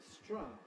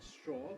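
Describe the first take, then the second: First: The vowel is the Californian one, like 'ah'. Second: The vowel is the usual standard American one. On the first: "but stra" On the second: "not straw"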